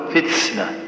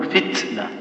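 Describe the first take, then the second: First: "فتسنة" with the ت hissed into an s; wrong s-like ta. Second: "فتنة" with a clean ت, breath released lightly; correct ta. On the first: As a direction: mispronounce "فتسنة", t turning to ts. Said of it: "هذا خطأ". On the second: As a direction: say "فتنة" with a crisp t and soft release. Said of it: "لا، قل". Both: Shown as a demonstration.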